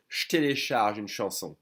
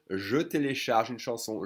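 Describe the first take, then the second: First: «je télécharge une chanson» as shtélécharge une chanson; as French say it. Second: «je télécharge une chanson» with je sounded whole; full acceptable form. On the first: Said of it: "but the French will say". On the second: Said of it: "you can totally say". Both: Shown as a demonstration.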